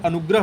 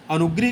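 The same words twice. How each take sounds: First: अनुग्रह as "anugrah"; a after gr in अनुग्रह; correct form. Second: First अनुग्रह as "anugrih"; i after gr in अनुग्रह; wrong form. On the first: Teacher restates the correct spelling, अनुग्रह as "anugrah". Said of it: "शुद्ध अनुग्रह होता है". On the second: Teacher restates the error, अनुग्रह as "anugrih". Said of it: "अनुग्रह नहीं होता है". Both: Shown as a demonstration.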